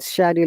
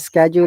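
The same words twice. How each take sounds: First: It is said with a British pronunciation. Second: It is said with an American pronunciation. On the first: "schedule is both the Australian and the British pronunciation" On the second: "schedule is American pronunciation"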